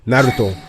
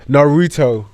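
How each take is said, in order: First: The name is said with a Japanese pronunciation. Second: The name is said with an English pronunciation. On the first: "If you watched it in the Japanese dub, it's clearly" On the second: "If you watch it in the English dub, it's"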